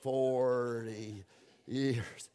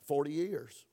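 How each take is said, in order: First: It is said slowly and drawn out. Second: It is said at normal speed.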